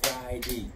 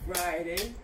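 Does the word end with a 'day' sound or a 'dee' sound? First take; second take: dee; day. First: The word ends with a 'dee' sound. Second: The word ends with a 'day' sound. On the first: "they say D" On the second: "the last part of the word would say day"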